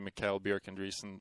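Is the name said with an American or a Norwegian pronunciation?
American. The name is said with an American pronunciation. "So I kind of Americanized it"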